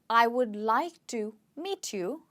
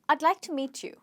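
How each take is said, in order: First: The words I and would are said separately. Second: The words I and would join into one syllable. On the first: "the full form of the sentence" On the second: "can actually be contracted"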